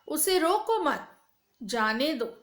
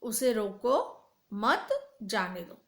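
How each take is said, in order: First: The pause comes after the word mat. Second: The pause comes after the word roko. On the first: Do not stop him; let him go. "पहले वाक्य में कहा गया है उसे रोको नहीं, जाने दो" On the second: Stop him; do not let him go. "दूसरे वाक्य में कहा गया है उसे रोक लो, जाने ना दो"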